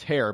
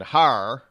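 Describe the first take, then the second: First: Hair with an EH vowel, "hair"; standard hair. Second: Hair said as "har", with an open AH; New Orleans har. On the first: Correcting New Orleans speech, hair with an EH vowel. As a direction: say hair plainly with EH, not AH. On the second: Mimicking New Orleans speech, hair as "har". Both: Shown as a demonstration. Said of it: "No, that's hair".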